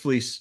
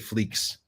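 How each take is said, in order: First: The name ends with a plain s sound. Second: The name ends with a ks sound. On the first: This is how the family says it. "you said it right. It's fleece" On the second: This is how most other people say it. "most people say fleeks"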